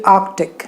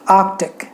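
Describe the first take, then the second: No difference in how they are said.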